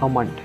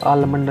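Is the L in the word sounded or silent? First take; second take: silent; sounded. First: The L sound is left out of the word. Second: The L sound is pronounced in the word. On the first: The speaker calls it right. "इसका actual pronunciation अमंड है" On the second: The speaker calls it wrong. "इसको आलमंड नहीं बोलते"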